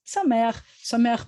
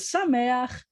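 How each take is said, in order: First: Sameach said brightly with an audible smile. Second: Said in the usual way. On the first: Shown as a demonstration. Teacher shows students how to say happy, smiling. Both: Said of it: "you have to say it with a smile".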